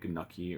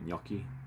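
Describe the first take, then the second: First: The g and n are sounded as separate sounds. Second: The g and n blend into one ny sound. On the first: The speaker calls it wrong. "You don't say gnocchi" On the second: The speaker calls it right. "that G and A is like a nya"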